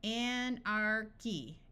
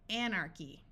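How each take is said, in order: First: "Anarchy" drawn out slowly, each syllable clear: an-ar-chy; teacher stretching "Anarchy" syllable by syllable; slow demo. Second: Said in the usual way. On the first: Shown as a demonstration. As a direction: sound out "Anarchy" slowly for a student, hard K. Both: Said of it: "some more words where C H sounds like the letter K".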